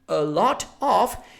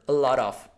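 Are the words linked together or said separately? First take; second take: separately; linked. First: The words are said separately and clearly. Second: The words run together fluidly. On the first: "instead of saying a lot of" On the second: "everything becomes more fluid"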